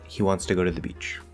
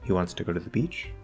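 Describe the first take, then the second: First: The voice falls at the end. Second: The voice rises at the end. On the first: It states a fact. "it's a statement" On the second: It asks a yes or no question. "I changed the statement into a yes or no question"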